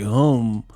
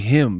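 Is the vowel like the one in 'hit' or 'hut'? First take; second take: hut; hit. First: The vowel sounds like the one in 'hut'. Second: The vowel sounds like the one in 'hit'. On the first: "He said like hum" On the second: "He like he don't say him"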